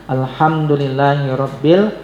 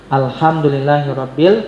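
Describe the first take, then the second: No difference in how they are said.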